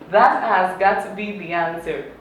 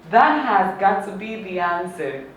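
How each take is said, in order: No difference in how they are said.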